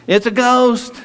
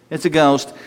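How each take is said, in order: First: High, hammed-up spooked "it's a ghost"; mock frightened cry. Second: Said in the usual way. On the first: Disciples seeing Jesus on the water, a mock frightened squeal. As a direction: squeal "ghost" like a scared sailor.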